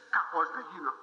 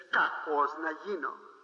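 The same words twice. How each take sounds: First: Said in the usual way. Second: Mock the believer, stretching «Κακός» slowly; slow mock grumble. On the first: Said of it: "Εσύ λες". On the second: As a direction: drag out «Κακός να γίνω» slowly and low. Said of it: "Εσύ λες, «Κακός να γίνω". (αργό, ειρωνικό «Κακός να γίνω»)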